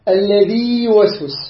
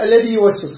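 First: The long vowel is held before the next word. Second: The long vowel merges into the next word. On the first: The speaker calls it right. "نقرأ هكذا" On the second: The speaker calls it wrong. "بعض نقرأ الذي يوسوس، خطأ، يدغمها"

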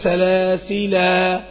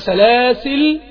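First: The word ends with a long final vowel. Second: The word ends without a long final vowel. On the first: "إما أثبت الألف أو لا أثبت الألف" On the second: "إما أثبت الألف أو لا أثبت الألف"

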